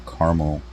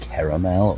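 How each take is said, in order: First: "caramel" said in two syllables, CAR-mul; "caramel" squeezed to CAR-mul. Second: "caramel" said in three syllables, CARE-uh-mel. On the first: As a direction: drop the middle vowel of "caramel". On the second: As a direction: sound the middle vowel in "caramel". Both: Shown as a demonstration. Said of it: "Is it pronounced".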